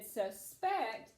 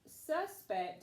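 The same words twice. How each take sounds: First: The stress is on the second syllable. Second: The stress is on the first syllable. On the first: It is a verb meaning to think something. "it would be on the second syllable" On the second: It is a noun naming a person. "it would be on the first syllable"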